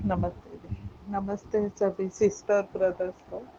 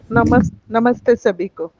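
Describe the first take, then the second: First: Faint, far from the mic; too soft to hear clearly; barely audible. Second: Speaking up to be heard; much louder, closer to the mic. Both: Real, not acted. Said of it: "आपकी आवाज़ थोड़ी कम आ रही है".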